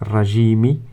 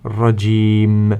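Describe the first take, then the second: First: The word ends with a short i vowel. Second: The word ends on the m sound. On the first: The reading continues without a stop. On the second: The reading stops at this word.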